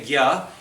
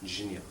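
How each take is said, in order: First: The syllable is said as g plus ya. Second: The syllable is said as j plus nya. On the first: This is the Hindi way. "in Hindi we say gya" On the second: This is the likely original form. "originally just a jnya. Ja and nya"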